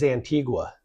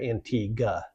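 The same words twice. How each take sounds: First: The word ends with a clear "wa" sound. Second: The word ends without the "wa" sound. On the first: This is the place in Guatemala. "It is Antigua" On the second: This is the place in the Caribbean. "does not pronounce the "wa" at the end"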